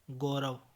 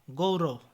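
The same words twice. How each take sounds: First: गौरव with a plain o; mispronunciation. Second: Said in the usual way. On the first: Shown as a demonstration. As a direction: say go-rav for गौरव. (गौरव को गोरव बोलें) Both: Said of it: "गौरव नहीं".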